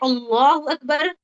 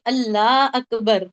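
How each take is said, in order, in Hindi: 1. "Allah" में L भारी और मोटा है। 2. "Allah" में L हल्का और बारीक है। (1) "यहाँ पे हमको मोटा पढ़ना है" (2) "इसको बारीक पढ़ ली"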